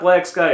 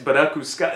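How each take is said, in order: First: It is said with plain English pronunciation. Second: It is said with Japanese-style pronunciation. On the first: The speaker calls it wrong. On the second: The speaker calls it right. "It's Baraku Sky"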